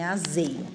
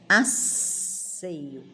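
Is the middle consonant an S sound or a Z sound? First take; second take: Z sound; S sound. First: The middle consonant is a buzzing Z sound. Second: The middle consonant is a hissing S sound. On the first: The speaker calls it wrong. "não é azeio" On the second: The speaker calls it right. "De estar preocupado"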